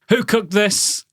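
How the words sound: It is loud and sounds like a complaint. The food was unsatisfactory. "the way you've said it there and at that volume, they sound like you're really unhappy"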